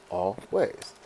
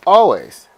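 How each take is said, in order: First: "always" as two separate beats; split into syllables. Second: Said in the usual way. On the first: Shown as a demonstration. Teacher showing that "always" has two syllables, split apart. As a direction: break "always" in two: al, pause, ways. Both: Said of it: "Always has two".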